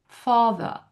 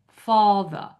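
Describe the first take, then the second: The two takes are said the same way.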